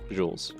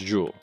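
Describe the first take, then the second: First: The name ends with an S sound. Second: The name ends without an S sound. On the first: The speaker calls it wrong. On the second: The speaker calls it right.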